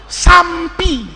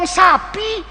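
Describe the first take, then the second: First: Sampi with an M slipped in before P; added M. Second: Said in the usual way. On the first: Shown as a demonstration. Teacher mimics people who can't say sapi, added M in sampi. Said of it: "ngomong sapi, sampi". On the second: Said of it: "Ada orang ngomong sapi".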